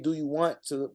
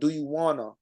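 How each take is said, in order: First: Both words 'want to' are said in full. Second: 'Want to' is reduced to 'wanna'. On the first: The speaker calls it wrong. "I won't say" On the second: The speaker calls it right. "It just sounds more natural to me"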